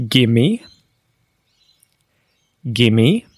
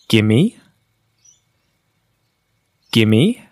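No difference in how they are said.

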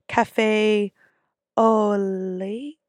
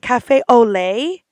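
First: The phrase is said hesitantly and unsurely. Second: The phrase is said confidently and smoothly. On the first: The speaker does not know how to pronounce it. The speaker calls it wrong. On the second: The speaker knows how to pronounce it. The speaker calls it right.

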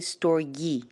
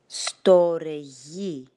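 First: It is said with an American pronunciation. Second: It is said with a Greek pronunciation.

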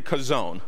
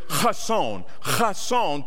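First: The word begins with a plain k sound. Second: The word begins with a harsh throat sound. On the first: This is an easier form that spares the throat. "to save my throat, I'm just going to say Kazon" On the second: This is the proper Hebrew pronunciation. "the proper pronunciation in the Hebrew is chason"

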